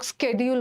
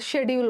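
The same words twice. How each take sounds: First: It is said with an American accent. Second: It is said with a British accent.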